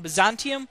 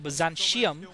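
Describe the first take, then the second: First: The 'ti' is said with a clear t sound. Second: The 'ti' is said with an sh sound. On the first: The speaker calls it right. "which is the pronunciation that I prefer for this map" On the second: The speaker calls it wrong. "some people prefer Byzantium"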